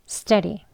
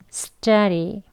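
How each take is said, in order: First: The word is said quickly. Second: The word is said slowly and carefully. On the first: "빨리 발음하면" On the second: "같이 해볼게요"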